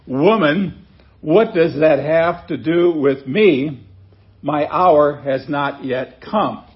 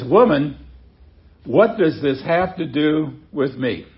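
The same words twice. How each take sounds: First: Slow, weighty read of the rebuke; slow deliberate reading. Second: Brisk, abrupt rebuke at usual pace. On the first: Pastor slowly reads Jesus' words to his mother, weighty. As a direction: lay each word down slowly and firmly. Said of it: "you wonder how Jesus actually said this". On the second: Jesus answers his mother, mildly abrupt. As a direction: clip it off like a curt brush-off. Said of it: "seems a little abrupt as well". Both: Shown as a demonstration.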